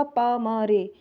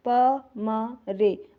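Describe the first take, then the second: First: Said in the usual way. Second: प, म, रे drawn out one by one with gaps; separate, measured letters: प... म... रे; spelled out slowly. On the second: Shown as a demonstration. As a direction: say "प म रे" very slowly, pausing after each letter. Abbreviation repeated letter by letter.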